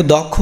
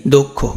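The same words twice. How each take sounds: First: দক্ষ as "dawk-kho", open first vowel; open-vowel version. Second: দক্ষ as "dok-kho", rounded first o; correct o-sound. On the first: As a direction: keep অ in the first syllable of দক্ষ. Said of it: "তো এটা দেখো দক্ষ নাকি". (অ দিয়ে "দক্খো") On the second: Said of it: "এটা কি?". (ও দিয়ে "দোক্খো") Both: Shown as a demonstration.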